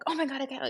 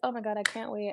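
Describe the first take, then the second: First: It is said with great excitement. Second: It is said calmly, with mild interest.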